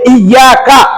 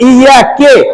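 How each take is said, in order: First: It ends with an 'a' vowel. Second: It ends with an 'e' vowel. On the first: The speaker calls it right. "इया का है" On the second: The speaker calls it wrong. "लेकिन यहां पर पढ़ देना कि इया के"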